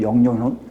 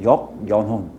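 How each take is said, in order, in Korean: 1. 빠르게, 한 덩어리의 부드러운 단어로 말해요. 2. 천천히, 여러 부분으로 나눠서 말해요.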